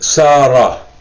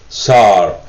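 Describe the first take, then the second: First: The word ends with an added a vowel. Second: The word ends on the consonant r. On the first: "Some people pronounce it Sarah. ... it has a at the end" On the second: "So sar means he walked"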